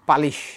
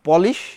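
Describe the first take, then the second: First: The first vowel sounds like 'a'. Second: The first vowel sounds like 'o'. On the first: This is the adapted Bengali form. "হয়ে গেছে পালিশ" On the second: This is the original English form. "পলিশ হয়ে গেছে"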